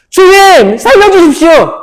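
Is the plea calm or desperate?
desperate. The plea is cried out in desperate fear.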